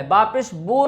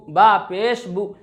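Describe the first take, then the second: First: बो with an 'o' instead of 'oo'; majhul vowel, wrong. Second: बु with a short closed 'u'; maruf vowel. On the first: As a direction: open the pesh into बो. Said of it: "ये मजहूल आवाज़". (बो वाली मजहूल आवाज़) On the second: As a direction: round the lips for a quick बु. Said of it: "हमें मारूफ आवाज़ में पढ़ना है". (बु की मारूफ आवाज़) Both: Shown as a demonstration.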